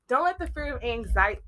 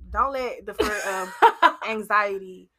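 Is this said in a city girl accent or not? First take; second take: not city girl; city girl. First: It does not sound like a city girl accent. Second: It is said in a city girl accent. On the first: The speaker calls it wrong. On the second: The speaker calls it right.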